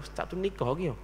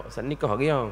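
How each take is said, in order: First: Softer, hushed gossip question; gossipy aside. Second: Lightly voiced nosy student asking; curious asker. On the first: Retold or imitated. People at his teaching places gossiping about him, hushed. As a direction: murmur it like people gossiping behind his back. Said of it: "banyak orang tempat mengajar tanya dah". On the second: Students asking the ustaz if he is married, lightly mimicked. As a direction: ask it as a curious student, barely acted. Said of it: "Jangan tanya pula".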